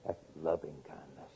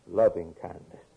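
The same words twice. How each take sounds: First: Much softer, lower, tender; hushed. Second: Said in the usual way. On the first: Real, not acted. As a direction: drop it almost to a hush. Preacher dropping to hush.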